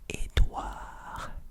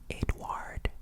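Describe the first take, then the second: First: The name ends without any D sound. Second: The name ends with a clear D sound. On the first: The speaker calls it right. "the D at the end is silent" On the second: The speaker calls it wrong. "You do not say Edward. No, no, no"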